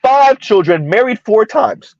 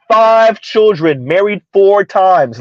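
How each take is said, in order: First: Said in the usual way. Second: Put-on Five children, married four times, each word drawn out slowly; slow, deliberate repeat. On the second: Shown as a demonstration. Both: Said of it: "Say that again".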